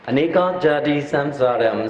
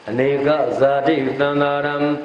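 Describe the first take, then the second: First: It is recited with Indian-style Pali sounds. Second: It is recited with Burmese-style Pali sounds. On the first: "But according to the original Pali" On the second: "Nyama Pali is"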